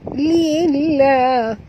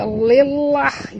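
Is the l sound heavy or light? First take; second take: light; heavy. First: The l sound is light and thin. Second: The l sound is heavy and thick. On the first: The speaker calls it right. "dibaca tipis" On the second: The speaker calls it wrong. "Itu dah tebal ya"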